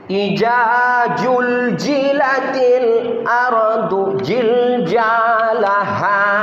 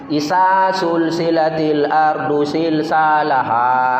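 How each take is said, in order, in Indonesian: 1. Bunyi z dilafalkan sebagai j. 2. Bunyi z dilafalkan sebagai s. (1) "Semua dibuat pula huruf jim" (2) "Semua dibuat huruf S"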